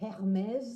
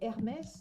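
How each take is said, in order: First: The name is said with an English-style pronunciation. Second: The name is said with a French pronunciation. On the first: The speaker calls it wrong. "we don't say Hermes" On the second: The speaker calls it right. "We say Hermes"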